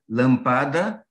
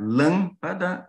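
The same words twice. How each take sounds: First: Lampada said slowly as lam-PA-da; lampada, slow, accent on the middle; stress second syllable. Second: Lâmpada with stress on LÂM; lâmpada stressed on the first syllable. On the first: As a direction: stretch lampada, weight on PA. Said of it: "ou lampada". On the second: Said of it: "a gente pode acentuar lâmpada". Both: Shown as a demonstration.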